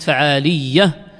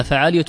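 First: فعالية as faʕāliyya, heavy double y; the rejected form, فعالية with geminated y; doubled ya. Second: فعالية as faʕāliya, single light y; lightened فعالية, ending in a quick -iya. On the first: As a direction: say فعالية leaning long on a doubled ya. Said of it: "ليست فعالية وإنما فعالية مخففة". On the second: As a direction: say فعالية with no doubling on the ya. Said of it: "وإنما فعالية مخففة". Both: Shown as a demonstration.

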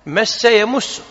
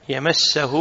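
First: "يمس" with a u after the م, ya-MUS-su; higher-pitched "مس يمس", the second word with damma; damma on the mim. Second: "يمسه" with an a after the م, ya-MAS-sa-hu; fatha on the mim. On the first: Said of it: "بالضم". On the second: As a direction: pronounce "يمسه" with fatha, not damma. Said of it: "بالفتح". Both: Shown as a demonstration.

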